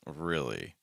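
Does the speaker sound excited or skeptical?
skeptical. It sounds doubtful and skeptical. The speaker doubts the news is true. "I don't believe them and I'm a little skeptical"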